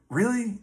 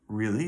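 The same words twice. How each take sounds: First: Really? pitched way up in disbelief; incredulous really. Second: Said in the usual way. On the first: Retold or imitated. Retelling the dream, Tim balks at going back to bed: incredulous. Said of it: "so I'm like". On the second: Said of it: "And he's like".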